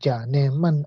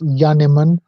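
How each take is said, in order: First: The name begins with a J sound. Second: The name begins with a Y sound. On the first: This is how an Urdu speaker would read it. "in Urdu, J is pronounced J, as in Janiman" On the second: This is the Afrikaans way of saying it. "J is pronounced as Y in Afrikaans"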